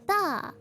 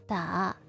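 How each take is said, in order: First: The pitch falls from high to low. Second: The pitch dips low, then rises. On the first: "the fourth one is from high to low" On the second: "middle, low, high"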